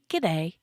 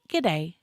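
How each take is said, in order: First: The first word shrinks into one short g sound. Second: The same.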